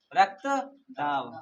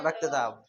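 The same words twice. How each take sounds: First: Slow. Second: Said in the usual way. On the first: Shown as a demonstration. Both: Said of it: "और हिंदी में क्या बोलते हैं?".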